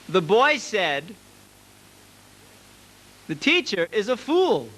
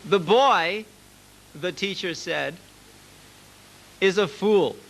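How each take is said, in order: First: One pause comes after 'the boy said'. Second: Pauses set off 'the teacher said' in the middle.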